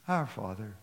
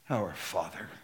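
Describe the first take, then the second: First: It is said in a soft, sugary tone. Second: It is said in a firm, proclaiming tone. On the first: It is a gentle, tender prayer. The speaker calls it wrong. "we say it with syrup in our voice" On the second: It is a bold statement of authority. The speaker calls it right. "from a sweet prayer to a declaration"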